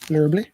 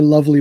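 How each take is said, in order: First: It is said with an r sound, like lurbly. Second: It is said with no r sound, like lovely. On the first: "I say lurbly. That's the way I say it" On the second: "That's why I say lovely"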